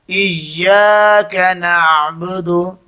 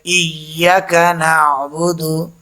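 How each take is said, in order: First: The vowel after iyy- is held long. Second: The vowel after iyy- is cut short. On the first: The speaker calls it right. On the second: The speaker calls it wrong.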